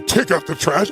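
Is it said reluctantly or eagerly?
reluctantly. It is said in a reluctant, grudging tone.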